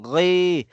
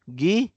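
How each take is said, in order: First: The sound is made deep in the throat. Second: The sound is made like a plain English G. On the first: The speaker calls it right. "Dapat ang tunog nandito po sa ating l- lalamunan" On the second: The speaker calls it wrong. "Yung parang binasa mo lang yung letter G, gi, hindi po yun"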